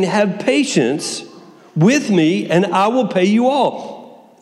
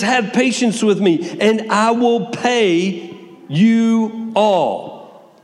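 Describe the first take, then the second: First: Very slow, stretched begging; begging servant. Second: Slow, drawn-out pleading, a touch higher; pleading servant. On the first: Fellow servant begging at his feet, slow begging. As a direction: plead each word out slowly. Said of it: "and he begged him". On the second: Servant begging his master for patience, drawn-out pleading. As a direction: beg the master for time, slowly. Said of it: "He's pleading with him". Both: Acted.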